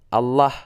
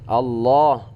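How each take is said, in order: First: The vowel after the l sounds like a. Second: The vowel after the l is between a and o. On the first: The speaker calls it wrong. "lebih ke A" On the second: The speaker calls it right. "tebal itu tidak ke A dan tidak ke O"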